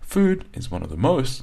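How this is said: The words 'of the' are unstressed and light. The speaker calls it right. "of the is not stressed and they've got small sound waves"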